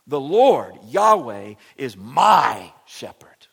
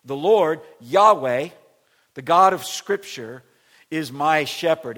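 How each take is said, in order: First: Loud start, then "my shepherd" drawn out slow and whispered; stress on my. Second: Loud, even emphasis on every phrase; loud proclamation. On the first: Pastor underlining "my" for his church, slow whispered stress. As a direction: lean on "my", hush "my shepherd". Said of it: "underline a word ... it would be my". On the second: Pastor proclaiming the verse to church, loud. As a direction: shout the whole line out evenly. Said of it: "if you were gonna underline a word". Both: Shown as a demonstration.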